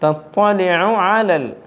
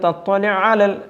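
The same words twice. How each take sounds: First: The two ain sounds are kept clearly separate. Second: The two ain sounds run together into one. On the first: The speaker calls it right. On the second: The speaker calls it wrong.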